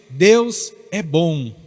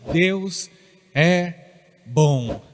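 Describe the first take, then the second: First: It is said plainly, without special conviction. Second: It is said firmly, with strong conviction.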